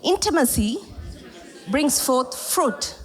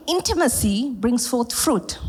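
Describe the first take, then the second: First: Very slow, split after "Intimacy"; call and response. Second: Slow, stress on "intimacy"; slow emphatic statement. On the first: Preacher drills the phrase slowly with the congregation. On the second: Preacher slowly stresses the key phrase for the church. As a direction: stamp each word of the phrase. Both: Shown as a demonstration. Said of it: "Can you say it with me".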